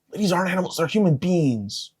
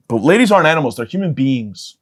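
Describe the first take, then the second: First: Higher and softer, almost mock-sincere; high soft repeat. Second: Said in the usual way. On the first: Shown as a demonstration. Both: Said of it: "repeats the line in another voice".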